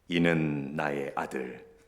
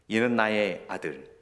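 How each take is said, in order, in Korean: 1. 목소리를 낮추고 깊게 읽었어요. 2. 보통 목소리로 읽었어요.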